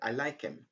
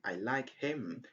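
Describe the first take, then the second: First: The h in 'him' is dropped. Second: The h in 'him' is clearly pronounced. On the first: "you just say" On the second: "Instead of saying"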